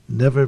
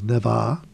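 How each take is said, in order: First: The r sound is pronounced. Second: The r sound is dropped.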